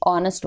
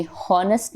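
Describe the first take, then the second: First: 'ऑनेस्ट' opening straight on the vowel; silent H. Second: 'हॉनेस्ट' with an audible H at the start; sounded H. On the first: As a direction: drop the H and begin 'ऑनेस्ट' with an 'aw' sound. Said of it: "ये ऑनेस्ट होता है". ('ऑनेस्ट' में H मूक, शुरुआत 'ऑ' से) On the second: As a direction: mispronounce it as 'हॉनेस्ट', voicing the silent H. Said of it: "ये हॉनेस्ट नहीं होता है". ('हॉनेस्ट' की शुरुआत में 'ह' की आवाज़ के साथ) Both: Shown as a demonstration.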